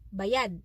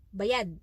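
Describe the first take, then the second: First: Said with the pronunciation meaning paid. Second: The same.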